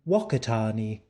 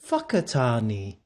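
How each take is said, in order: First: The name is said with an anglicized pronunciation. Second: The name is said with Maori pronunciation. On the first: "But I like to pronounce it the proper way" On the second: "or as the Maori people like to pronounce it"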